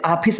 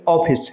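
First: ऑफिस said as "aa-phis"; open AA mispronunciation. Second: ऑफिस with a rounded "aw", "aw-phis". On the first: Teacher rejects the wrong form, ऑफिस as "aa-phis". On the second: Teacher gives the right form, ऑफिस as "aw-phis". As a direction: round the first vowel of ऑफिस. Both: Shown as a demonstration. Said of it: "इसको ऑफिस नहीं कहते".

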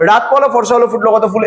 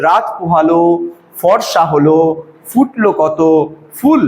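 First: No gap after "পোহালো", "হলো" or "কত"; all in one go. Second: Four separate chunks, ending on a lone "ফুল"; measured recital with a clear gap after "পোহালো", "হলো" and "কত"; pausing between phrases. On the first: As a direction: run "রাত পোহালো" straight through to "ফুল" without pauses. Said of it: "এই কথাটা কিন্তু আমরা একবারে বলছি না". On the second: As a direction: stop after "রাত পোহালো", "ফর্সা হলো" and "ফুটলো কত". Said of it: "এখানে আমরা বলছি". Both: Shown as a demonstration.

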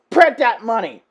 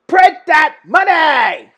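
First: Emphatic call, pitch near usual; excited urging. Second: High, slow, drawn-out shout; escalated cheer. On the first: Fan urging networks to make the show, excited call. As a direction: urge them on firmly. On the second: Fan urging networks to cash in, slow loud hype shout. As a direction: stretch it into a big hype yell. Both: Real, not acted.

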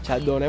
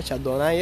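First: Chardonnay ending in "né"; preferred pronunciation. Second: Chardonnay ending in "ai"; odd-sounding version. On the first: Streamer giving his favourite version, Chardonnay ending "né". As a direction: say Chardonnay with a final "eh" sound. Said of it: "me gustaba más". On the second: Streamer finding it strange, Chardonnay ending "nai". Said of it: "eso me suena raro". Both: Shown as a demonstration.

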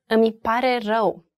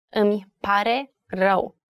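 First: Said in the usual way. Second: "Îmi pare rău" slowed, with a gap between each word. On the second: Shown as a demonstration. Teacher showing learners the three words, word by word. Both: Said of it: "Three words".

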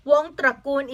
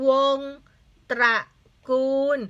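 First: Said in the usual way. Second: วง, ตระ, กูล, each set apart by pauses; syllable-by-syllable reading. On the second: Shown as a demonstration. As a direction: sound out วงตระกูล in three beats. Teacher sounds out the word.

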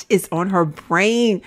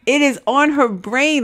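First: Said in the usual way. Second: "It is on her brain" with "is" stretched out, slowly; stress on is. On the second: Real, not acted. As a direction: lean slowly on "is".

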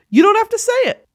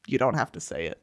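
First: High, louder: You don't have to say it; emphatic take. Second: Low soft: you don't have to say it; quiet take. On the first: High emphatic "You don't have to say it" to men. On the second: Quiet low "you don't have to say it" to men. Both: Shown as a demonstration.

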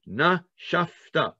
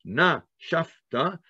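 First: "Nashafta." drawn out slowly on the breath; slow exhaled Nashafta; slow breathed-out word. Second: "nashafta," drawn out slowly on an exhale; slow exhaled nashafta; slow breathed-out word. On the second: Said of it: "you have to breathe out". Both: Shown as a demonstration.

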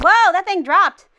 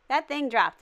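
First: Loud, high startled exclamation. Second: Said in the usual way. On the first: Real, not acted. Player sees a trap fall, startled cry. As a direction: blurt it out in sudden alarm. Trap suddenly drops in game.

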